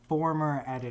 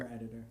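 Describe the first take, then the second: First: It is said more loudly. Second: It is said at normal, quieter volume.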